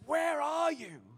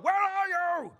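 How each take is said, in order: First: It is said in a sad, compassionate tone. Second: It is said in an angry tone.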